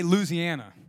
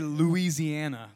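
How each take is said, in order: First: The name is said in the local Louisiana way. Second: The name is said in the outsider's way. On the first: The speaker is from Louisiana. The speaker calls it right. "They say Louisiana" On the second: The speaker is not from Louisiana. The speaker calls it wrong. "They don't say Louisiana. Like, I struggle to even say that"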